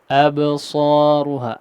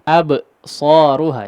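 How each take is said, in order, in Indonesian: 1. Suku katanya menyambung tanpa jeda sama sekali. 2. Ada jeda setelah suku kata pertama yang dipantulkan. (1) "tidak seperti itu ya, tapi dilangsungkan" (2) "jangan absaruha ya. Ada jeda ab e"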